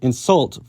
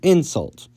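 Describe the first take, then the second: First: The stress is on the second syllable. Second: The stress is on the first syllable. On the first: It is used as a verb. "move the stress from the second syllable" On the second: It is used as a noun. "to the first"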